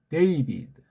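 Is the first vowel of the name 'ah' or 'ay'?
ay. The first vowel is a gliding 'ay' sound. This is the American way of saying it. The speaker calls it wrong. "미국식은 데이비드"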